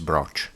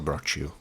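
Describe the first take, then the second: First: The word ends without a final vowel sound. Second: The word ends with a final vowel sound. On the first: The speaker calls it right. "the correct pronunciation is broch" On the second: The speaker calls it wrong. "not brochu"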